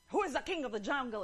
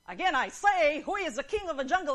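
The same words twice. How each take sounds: First: Quick, mildly forceful lion demand; lightly voiced bossy lion, fast; growling lion. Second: Loud, high, rapid lion demand; blustering lion at full volume; angry growling lion. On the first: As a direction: challenge the elephant briskly. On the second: Acted. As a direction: repeat it furiously, in mock rage. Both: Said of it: "And growled".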